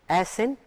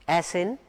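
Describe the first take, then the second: No difference in how they are said.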